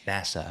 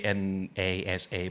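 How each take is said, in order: First: It is said as one single word. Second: Each letter is named separately. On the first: The speaker calls it right. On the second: The speaker calls it wrong. "we, don't, say"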